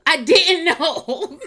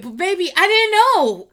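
First: Slow, drawn out, laughing mid-word; laughing through it. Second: High, loud exasperated wail; much higher, louder I didn't know; exasperated cry. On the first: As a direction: let the laugh break the words. Repeats it dissolving into laughter. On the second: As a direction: throw up your hands and cry it out. Pleading with fans, exasperated. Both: Real, not acted.

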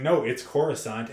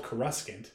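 First: Coruscant as "CORE-uh-sahnt", first syllable stressed; film pronunciation. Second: Coruscant as "kuh-RUSK-ant"; old fan pronunciation. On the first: Correcting the fans, Coruscant as CORE-uh-sahnt. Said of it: "it turns out that it's Coruscant". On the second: Voicing fans correcting the film, Coruscant as kuh-RUSK-ant. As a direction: put a hard "RUSK" in Coruscant. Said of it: "We all thought it was pronounced". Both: Retold or imitated.

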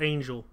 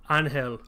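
First: Angel said English-style, AYN-jul; English pronunciation. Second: Angel said Spanish-style, AHN-hel; Spanish pronunciation. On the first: Offering another way to say the character's name, English pronunciation. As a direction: say Angel as "AYN-jel", with a j sound. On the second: Recalling the character's name in this, Spanish pronunciation. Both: Shown as a demonstration. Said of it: "it's pronounced Angel".

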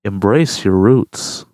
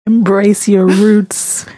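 First: Lower, very slow, exaggerated "Embrace your roots."; mock slow deep imitation. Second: Slow earnest. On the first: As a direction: drag it out low to mock it. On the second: Real, not acted. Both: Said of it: "Don't say it like that".

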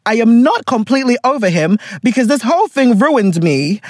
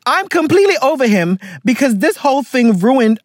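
First: "not" lifted and leaned on; rising push on "not" to fix the line; stress on NOT. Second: Said in the usual way. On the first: Shown as a demonstration. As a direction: correct the misread by hitting "not". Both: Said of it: "I'm not, no, no, no".

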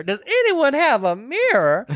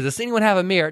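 First: Much higher, drawn-out request; escalated plea. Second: Slightly higher, retold film line; lightly voiced request for a mirror; mildly acted request. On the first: Retold or imitated. Retelling the woman demanding a mirror, high drawn-out plea. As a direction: stretch it out high, theatrically. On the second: Retelling the woman asking for a mirror, mildly acted request.

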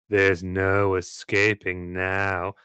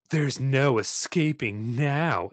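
First: Slow, cold, menacing threat. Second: Cold voice. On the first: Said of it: "I'll show that again then". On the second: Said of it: "in a cold voice". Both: Acted.

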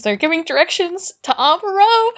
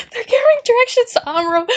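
First: Higher-pitched eager retelling; rising excitement. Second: Very high, fast excited squeal; bursting excitement. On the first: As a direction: tell it with growing excitement. First take of excited retelling. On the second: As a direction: repeat it in a rushing, thrilled squeak. Repeats it with mounting excitement. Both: Real, not acted.

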